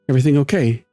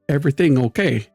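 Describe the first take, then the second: First: It is said in an ordinary speaking voice. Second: It is said in a put-on character voice. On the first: The speaker calls it wrong. "she doesn't say it like that" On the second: The speaker calls it right. "in her"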